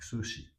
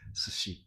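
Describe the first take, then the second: First: The first vowel is clearly voiced. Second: The first vowel is silent. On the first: This is how it is said in Osaka. "U is clearly said there" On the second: This is the standard pronunciation. "this U is unpronounced"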